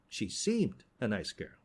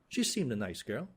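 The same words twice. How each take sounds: First: The stress is on the word seemed. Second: The stress is on the word nice.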